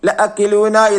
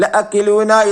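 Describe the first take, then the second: First: The vowel after the catch is kept short. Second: The same.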